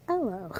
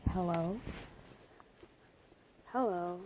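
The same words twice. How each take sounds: First: Hello said as "ello", no H, a touch louder; dropped H. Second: Said in the usual way. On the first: Shown as a demonstration. Teacher showing the Jamaican hello, H dropped. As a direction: drop the H at the front of hello. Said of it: "then take off the H". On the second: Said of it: "So you would say".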